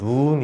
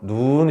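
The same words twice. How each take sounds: First: The vowel is said short. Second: The vowel is said long. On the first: It means the eye. "얘는 짧게 발음하고" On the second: It means the snow. "눈 이렇게 길게 발음하거든"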